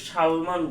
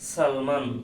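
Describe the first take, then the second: First: The word begins with a sh sound. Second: The word begins with a plain s sound. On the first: The speaker calls it wrong. "এটাকে সালমান বলি না" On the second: The speaker calls it right. "আমরা বলি সালমান"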